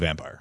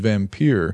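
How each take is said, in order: First: The word is said with an English pronunciation. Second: The word is said with a Hungarian pronunciation. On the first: The speaker calls it right. "our game is called Vampire" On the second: The speaker calls it wrong. "the Hungarian pronunciation is vampire"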